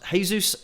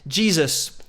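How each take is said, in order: First: The name is said with non-English pronunciation. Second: The name is said with English pronunciation. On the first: The speaker calls it right. "it's pronounced Jesus" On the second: The speaker calls it wrong. "apologies for that mispronunciation. But in England, we do say Jesus"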